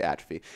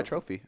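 First: Atrophy said AT-ruh-fee; first syllable of atrophy stressed, short middle; usual pronunciation. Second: Atrophy said at-TROH-fee, unsure; tentative long TROH in atrophy; alternate pronunciation. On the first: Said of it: "I usually say". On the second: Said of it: "I usually say atrophy". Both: Shown as a demonstration.

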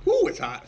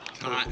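First: Ooh pitched way up, then falling; hot-food ooh, high and loud; exaggerated ooh. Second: Said in the usual way. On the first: Shown as a demonstration.

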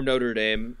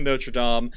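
First: Notre Dame said NO-ter DAME; "Notre Dame" flattened into American NO-ter DAYM; Americanized pronunciation. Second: Notre Dame said NO-truh DAHM; French-style pronunciation. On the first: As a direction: say "Notre Dame" slowly, Dame rhyming with name. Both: Shown as a demonstration. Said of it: "if you're an asshole".

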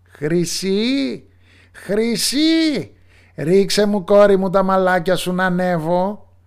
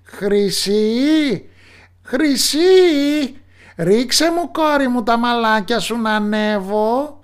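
First: High, loud witch call. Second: High, loud put-on witch call; young man mimicking the witch, calling up high; prince faking the witch. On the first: Acted. Witch calls up to her daughter in the tower, high and loud. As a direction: sing it up to the tower window like a witch. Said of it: "ακούστηκε η μάγισσα να φωνάζει". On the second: Prince imitates the witch calling up to the tower. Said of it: "Άλλαξε τη φωνή του τάχα μου πως είναι η μάγισσα".

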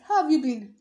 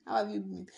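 First: Loud cheery how; loud greeting. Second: Said in the usual way. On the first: Shown as a demonstration. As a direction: call it out brightly. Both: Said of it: "I keep asking".

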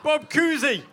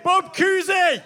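First: Put-on weak Boston accent; a hint of Boston accent. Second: Put-on higher, slow shouted Boston accent. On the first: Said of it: "I just did my Boston accent". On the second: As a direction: belt it in broad Boston accent. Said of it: "That was pathetic".

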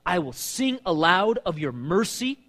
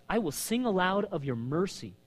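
First: Slow, raised praise; proclaimed reading. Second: Quieter, dwelling on the line; softer savoring. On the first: Preacher reading the praise line, slow and raised. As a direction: proclaim it like a vow. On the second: Preacher savoring the verse he loves, softer. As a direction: savor the words gently. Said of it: "Notice, I love this". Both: Acted.

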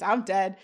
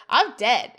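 First: Said in the usual way. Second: Louder, emphatic mock declaration; imitating a bold exclamation; retold exclamation. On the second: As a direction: announce it with a punch. Retold line, then repeated by [name].

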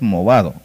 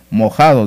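First: "movado" said with a v in the middle; "movado" with v replacing the throaty j; corrected brand name. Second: "mojado" said with a j sound in place of v; "mojado" with a throaty j in the middle; mispronounced brand. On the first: Shown as a demonstration. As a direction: give the corrected "movado", louder. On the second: Retold or imitated. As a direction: quote the mistaken "mojado". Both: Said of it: "No es mojado, es movado".

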